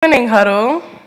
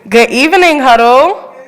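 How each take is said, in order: First: The greeting is said with low energy. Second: The greeting is said with high energy.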